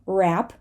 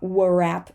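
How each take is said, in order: First: The word begins directly with R. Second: A W sound begins the word. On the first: The speaker calls it right. "The W before an R at the beginning of a word is all uh, pretty often going to be silent" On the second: The speaker calls it wrong. "not warap"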